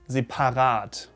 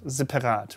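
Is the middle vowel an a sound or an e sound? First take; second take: a sound; e sound. First: The middle vowel is an a sound. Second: The middle vowel is an e sound. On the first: The speaker calls it right. "But it should be separat" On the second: The speaker calls it wrong. "separat with an E"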